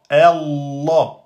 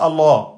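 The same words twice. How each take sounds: First: The l sound is held and doubled. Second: The l sound is short, not held. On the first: The speaker calls it right. "on insiste sur le lem" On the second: The speaker calls it wrong. "c'est pas Allah"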